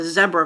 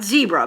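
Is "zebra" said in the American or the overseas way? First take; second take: overseas; American. First: Zebra is said the way people overseas say it. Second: Zebra is said the usual American way. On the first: "they call it pronounce it zebra" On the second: "Not zebra"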